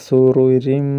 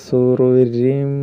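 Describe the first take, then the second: Both takes have the same delivery.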